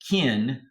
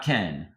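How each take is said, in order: First: The vowel sounds like the i in pit. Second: The vowel sounds like the e in pet. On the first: This is how Southerners say the name. "it's kin" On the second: This is how people outside the South say the name. "not Ken"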